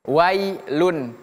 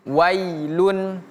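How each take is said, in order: The two takes are said the same way.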